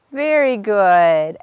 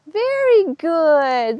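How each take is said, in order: First: Slow soothing praise. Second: Very good sung out high and slow; high slow delighted praise; excited praise. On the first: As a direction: stretch it out to calm the horse. Praising horse as she backs. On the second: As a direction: cheer her on, drawn out. Horse steps forward on cue. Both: Real, not acted.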